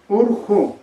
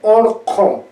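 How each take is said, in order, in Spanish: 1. Las vocales son cerradas, suenan como 'u'. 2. Las vocales son abiertas, suenan como 'o'. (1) "variante chanca, ... lo van a pronunciar como si fuera así" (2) "en la variante Collao ... ellos van a pronunciar orjo"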